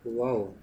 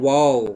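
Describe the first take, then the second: First: "वाओ" dropped low and soft, no excitement at all; a dull, underwhelmed "वाओ", almost muttered; unimpressed wow. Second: "वाओ" said like you are truly amazed; excited wow. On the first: Teacher contrasting a flat, unimpressed wow for students, quiet. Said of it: "और दूसरे वे में मैं कह रहा हूँ". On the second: Teacher demoing an impressed wow to the class, excited. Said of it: "जैसे मैं कह रहा हूँ". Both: Shown as a demonstration.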